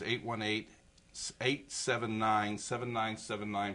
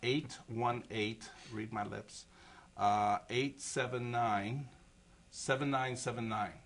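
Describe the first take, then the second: First: The number is said at normal, quicker speed. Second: The number is said slowly and deliberately.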